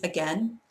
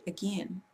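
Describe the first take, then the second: First: Said in the usual way. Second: "again" as uh-GIN, short i; North Carolina again. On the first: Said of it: "But my North Carolina people". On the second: Retold or imitated. Speaker quoting North Carolina family, again as uh-gin. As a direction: raise the vowel of again to "gin". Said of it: "my North Carolina people".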